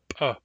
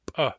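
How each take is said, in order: First: The p is released forcefully. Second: The p is released forcefully.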